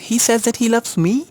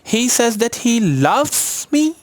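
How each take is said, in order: First: The stress falls on the last word, me. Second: The stress falls on the word loves. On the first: Surprisingly, he loves this unloved person. "Nobody loved मी ever" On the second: What he feels is love, not just friendship. "वो जो करता है वो प्यार है"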